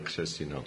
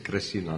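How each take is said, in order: First: The name is said with a Czech pronunciation. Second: The name is said with an American pronunciation. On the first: This is the original form of the name. "ne Křesina" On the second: This is how people in America said it. "v Americe Křesina"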